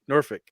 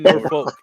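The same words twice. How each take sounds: First: The L sound is left out. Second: The L sound is clearly pronounced. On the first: The speaker calls it right. "the L's kind of silent when you pronounce it" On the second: The speaker calls it wrong. "You don't say Norfolk"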